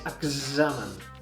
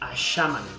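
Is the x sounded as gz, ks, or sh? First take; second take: gz; sh. First: The x is a voiced gz sound. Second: The x is a soft sh sound. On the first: The speaker calls it right. "és examen" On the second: The speaker calls it wrong. "no és com la X d'aixeta, no és aixamen"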